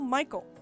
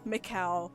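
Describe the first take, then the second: First: The name ends with a final l sound. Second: The name ends with an ow sound. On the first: "my brain just wants to say Michael" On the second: "it seems so weird to say it like that"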